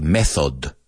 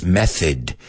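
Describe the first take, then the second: First: "method" with a clear O in the second syllable; students' mispronunciation. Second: "method" with a weak second vowel, like METH-id; correct pronunciation. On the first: Retold or imitated. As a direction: say "method" as learners do, last vowel fully sounded. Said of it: "he oído muchos alumnos decir". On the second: Shown as a demonstration. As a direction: reduce the end of "method" to a schwa. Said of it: "It's method".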